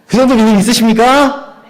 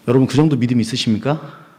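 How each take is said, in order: First: 정도를 높이 올리며 크게 외쳐 묻기; 회중을 향해 더 높고 크게 외쳐; 크게 외치는 질문. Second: Said in the usual way. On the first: Real, not acted. (회중의 아멘을 끌어내려 더 크게 외치는 질문) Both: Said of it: "아멘!".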